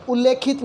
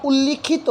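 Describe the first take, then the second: First: उल्लेखित with the long ए sound; wrong pronunciation. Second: उल्लिखित with a short इ, doubled ल्ल; correct pronunciation. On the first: Teacher to students, showing wrong उल्लेखित. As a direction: mimic the common mistake उल्लेखित. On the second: Teacher to students, giving correct उल्लिखित. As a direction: say उल्लिखित clearly. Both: Shown as a demonstration. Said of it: "उल्लिखित होता है".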